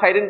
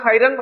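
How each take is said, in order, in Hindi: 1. शब्द का अंत -in की ध्वनि से होता है। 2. शब्द का अंत -an की ध्वनि से होता है। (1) "ना खैरिन पढ़ सकते" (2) "खैरन तो पढ़ नहीं सकते"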